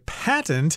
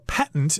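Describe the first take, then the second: First: The word is said slowly and fully. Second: The word is said quickly and reduced.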